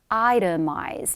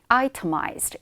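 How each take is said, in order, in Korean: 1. T 발음이 부드러워서 D처럼 들립니다. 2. T 발음이 더 강하고 선명하게 납니다. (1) "미국식 정석 발음으로는 itemized 이렇게 D처럼 발음이" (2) "영국식 억양이다라고 했을 때는 T 발음이 조금 더 강하게 나와요"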